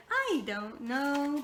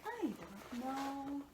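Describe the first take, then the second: First: Very slow drawn-out "I don't know"; "I don't know" dragged out in his voice; imitating the car guy. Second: Soft, very slow drawn-out "I don't know"; lazy slow "I don't know" under the breath; imitating the car guy. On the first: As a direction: stretch it lazily like the mechanic. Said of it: "why I was saying it like that". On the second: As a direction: drawl it out quietly, mock puzzled. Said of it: "I'm just like".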